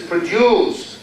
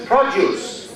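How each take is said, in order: First: "produce" stressed on the second syllable, pro-DUCE. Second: "produce" stressed on the first syllable, PRO-duce. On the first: Teacher contrasts the verb for the class, "produce" stressed pro-DUCE. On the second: Teacher contrasts the noun for the class, "produce" stressed PRO-duce. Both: Shown as a demonstration. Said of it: "So what's the rule here".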